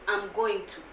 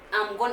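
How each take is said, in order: First: Each word of "going to" is said fully. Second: "Going to" is squeezed into one short word. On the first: "that's how it's, it is written in the book" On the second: "But when someone say, I'm gonna"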